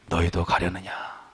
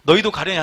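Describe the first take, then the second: First: It is said with deep, pained sorrow. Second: It is said flatly, without sorrow. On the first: The speaker calls it right. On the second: The speaker calls it wrong.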